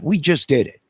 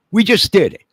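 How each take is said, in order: First: Defiant boast. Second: Much higher, louder triumphant shout of "We just did it."; defiant yell. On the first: Defiant boast after mock warning. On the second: Ranting man yells triumph at authorities, full shout. Defiant boast repeated, yelled. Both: Real, not acted.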